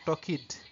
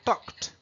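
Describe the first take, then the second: First: The ending is said as a full extra syllable. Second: The ending is said as a light T sound. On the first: The speaker calls it wrong. "on ne va pas le prononcer comme talked" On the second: The speaker calls it right. "comme un léger T à la fin"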